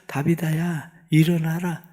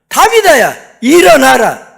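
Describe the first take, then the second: First: It is said quietly and softly. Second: It is said as a forceful command.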